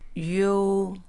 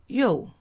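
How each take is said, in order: First: The pitch stays high and level. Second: The pitch falls sharply from high.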